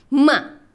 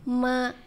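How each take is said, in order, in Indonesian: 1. Nada terdengar tajam, seperti marah. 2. Nada tetap rata dan datar. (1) "yang keempat tuh kayak orang marah" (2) "nada pertama tuh datar"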